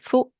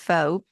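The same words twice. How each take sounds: First: It is said with a French pronunciation. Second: It is said with an English pronunciation. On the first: "In French, it would be" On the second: "that's how we say in English"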